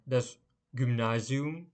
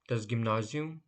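First: "das Gymnasium" drawn out syllable by syllable, rising at the end; slow teacher pronunciation of "das Gymnasium"; slow careful model. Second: Said in the usual way. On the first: Shown as a demonstration. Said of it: "teacher repeats word slowly then normally". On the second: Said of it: "repeat at normal pace".

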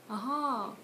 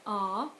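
First: "Aha" with pitch arching on the stressed second syllable; last-syllable stress. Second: "Ah" as a yes, weight at the front, no lift at the end; front-load a long "Ah"; first-syllable stress. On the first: Confirming new information, "Aha" stressed on the end. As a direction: save the weight for the end of "Aha". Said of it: "And "I see" is". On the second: Answering a yes or no question, "Ah" stressed up front. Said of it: "reply to the yes or no". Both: Shown as a demonstration.

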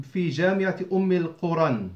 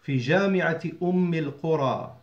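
First: القرى wrongly ending in -an, "al-quran"; wrong nunated ending. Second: القرى ending in an open long "aa", no n; alif ending. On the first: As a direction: add an n sound to the end of القرى. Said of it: "You don't say". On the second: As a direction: finish القرى as "il-quraa". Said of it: "pronounced with the alif". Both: Shown as a demonstration.

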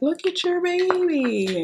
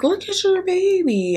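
First: Much higher and slow, sugary cooing imitation; mock cooing nurse. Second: Much higher, slow sing-song imitation; mock cooing nurse. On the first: Imitating the ultrasound tech cooing at her, mock sweet. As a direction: coo it like a gushing ultrasound tech. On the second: Mimicking the tech urging her to look, mock sweet. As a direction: gush it like an overly sweet nurse. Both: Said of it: "she's like".

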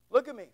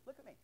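First: Said in the usual way. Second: Much softer, hushed look at me; a hushed mocking aside; mock whisper.

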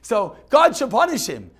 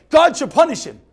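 First: Emphatic repeat. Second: Loud, pointed "God should punish him"; emphatic translation. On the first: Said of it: "repeating translation". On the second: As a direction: stress God hard. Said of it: "translating loudly". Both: Shown as a demonstration.

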